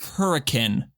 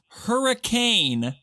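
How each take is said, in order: First: The word is pronounced in the local way. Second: The word is pronounced the way it is spelled. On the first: The speaker calls it right. "and it is hurricane" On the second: The speaker calls it wrong. "a city spelt hurricane"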